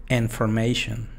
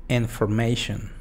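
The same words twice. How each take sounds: The two takes are said the same way.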